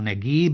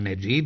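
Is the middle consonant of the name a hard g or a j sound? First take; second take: hard g; j sound. First: The middle consonant is a hard g sound. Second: The middle consonant is a soft j sound. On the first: This follows the Egyptian pronunciation. "prema izgovoru egipatskom" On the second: This is the standard literary pronunciation. "jer je to čisto književni izgovor"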